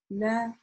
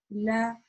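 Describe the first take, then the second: First: The vowel is a clear open 'a'. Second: The same.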